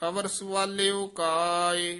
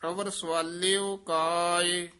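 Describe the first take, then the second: The two takes are said the same way.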